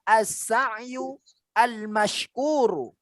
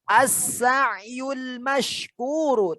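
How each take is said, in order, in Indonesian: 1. Kedua kata itu diucapkan terpisah, tidak disambung. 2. Kedua kata itu disambung menjadi satu. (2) "dibacanya sambung"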